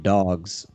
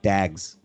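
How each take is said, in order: First: The vowel is the ordinary 'o' sound. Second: The vowel is an 'a' sound.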